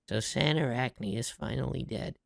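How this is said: It is said flatly in a natural voice.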